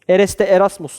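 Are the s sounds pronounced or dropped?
pronounced. Every s sound is clearly pronounced. This is the standard way to ask it. "şeklinde sorması gerekiyor"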